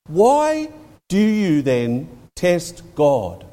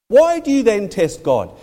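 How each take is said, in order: First: Very slow, word by word; deliberate, spaced-out challenge; slow, weighty challenge. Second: Higher, run together without pauses; pointed challenge in one breath; pressing challenge. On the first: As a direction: draw out the question with pauses between words. Peter's challenge quoted, then repeated. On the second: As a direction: press the question home in one go. Same challenge repeated more forcefully. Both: Retold or imitated.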